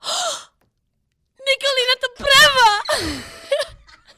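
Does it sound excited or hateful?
excited. It sounds thrilled, like winning the lottery.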